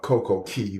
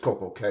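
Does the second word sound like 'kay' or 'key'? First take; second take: key; kay. First: The second word is pronounced like 'key'. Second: The second word is pronounced like 'kay'. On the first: "the correct pronunciation is" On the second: "but I don't care"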